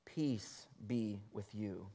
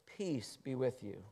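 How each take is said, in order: First: Soft, slow peace be with you; Jesus calming locked-in disciples, soft and slow; gentle Jesus. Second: Soft, slow blessing; gentle Jesus. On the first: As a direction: soothe frightened disciples. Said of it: "Jesus came and stood among them and said to them". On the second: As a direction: say it tenderly. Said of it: "he says". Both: A narrator's reading.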